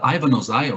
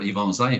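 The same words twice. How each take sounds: First: The name is said with an English pronunciation. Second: The name is said with a Brazilian pronunciation.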